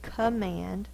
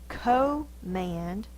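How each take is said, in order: First: The first vowel is a short schwa sound. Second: The first vowel is a long O sound. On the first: The speaker calls it right. "It's actually the schwa" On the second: The speaker calls it wrong. "we don't say co-mand. That's not the long O"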